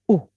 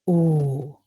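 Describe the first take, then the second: First: The vowel is short. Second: The vowel is long.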